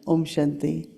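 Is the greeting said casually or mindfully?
casually. It is said quickly and offhandedly. The greeting is said out of habit. The speaker calls it wrong.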